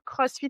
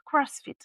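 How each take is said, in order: First: It is said with a German accent. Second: It is said with an English accent. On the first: "ils vont pas dire CrossFit avec l'accent allemand" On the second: "ils vont dire CrossFit"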